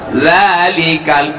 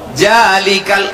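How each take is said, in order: First: The word begins with a 'z' sound. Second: The word begins with a 'j' sound. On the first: The speaker calls it right. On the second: The speaker calls it wrong.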